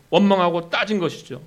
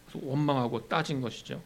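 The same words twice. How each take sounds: First: 원망하고 hit hard and loud; preacher pressing the point, loud; emphatic. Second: Said in the usual way. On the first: Shown as a demonstration. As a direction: drive home 원망하고 from the pulpit.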